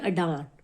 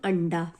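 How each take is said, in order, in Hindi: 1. नासिक्य ध्वनि दूसरे अक्षर के बाद आती है। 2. नासिक्य ध्वनि पहले अक्षर के बाद आती है। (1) "इसको पढ़ेंगे अडान" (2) "इसको पढ़ेंगे हम अंडा"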